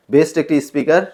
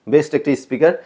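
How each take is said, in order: Both takes have the same delivery.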